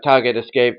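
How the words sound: It is said in a stiff, robotic voice. A machine is reporting without feeling. The speaker calls it wrong. "not like a very uh, robotic like target"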